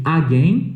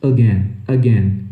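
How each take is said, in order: First: AGAIN as "AH-gain"; full first vowel on AGAIN; wrong pronunciation. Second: AGAIN low, as "uh-GEN"; short schwa starting AGAIN; improved pronunciation. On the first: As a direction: open A starting AGAIN. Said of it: "em vez de again". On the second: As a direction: weaken the A of AGAIN to "uh". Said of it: "realmente melhora a sua pronúncia". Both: Shown as a demonstration.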